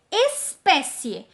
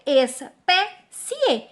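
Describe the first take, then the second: First: Said in the usual way. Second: ESPÉCIE broken as "es... pé... cie"; three separate beats on espécie, cie kept as one; split into syllables. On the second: Shown as a demonstration. Teacher showing the resulting division, syllable by syllable. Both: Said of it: "Então, fica".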